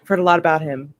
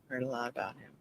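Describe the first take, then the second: First: Said in the usual way. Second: Much softer muttered echo; hushed. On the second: Acted. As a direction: drop it to a murmur. Repeats it hushed.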